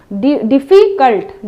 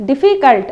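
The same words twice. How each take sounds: First: difficult said slowly, split into its syllables; teacher drawing out डि- then difficult so pupils hear each part; slow classroom model of difficult, syllable by syllable; slow syllable demo. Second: difficult said fast in one smooth run; teacher rattles off difficult at quick natural speed; quick everyday difficult, no breaks between syllables. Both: Shown as a demonstration. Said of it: "difficult ऐसे बोलते हैं".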